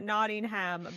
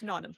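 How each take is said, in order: First: Every syllable is spelled out in full. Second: Several sounds are skipped in a shortened form. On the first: The speaker calls it wrong. "Americans would pronounce it" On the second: The speaker calls it right. "but it's Nottingham"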